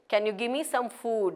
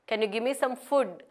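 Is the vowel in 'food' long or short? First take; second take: long; short. First: The vowel in food is long. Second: The vowel in food is short. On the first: The speaker calls it right. "it has a double vowel, so it has a long sound" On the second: The speaker calls it wrong. "That is how students usually say it, but that is inappropriate"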